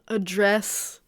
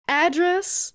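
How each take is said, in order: First: "address" stressed on the second syllable, a-DRESS; "address" as the verb, a-DRESS; verb pronunciation. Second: "Address" stressed on the first syllable, AD-dress; "Address" as the noun, AD-dress; noun pronunciation. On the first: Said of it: "the verb". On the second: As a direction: say "Address" as AD-dress, high at the start. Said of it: "the noun". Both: Shown as a demonstration.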